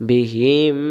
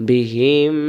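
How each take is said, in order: The two takes are said the same way.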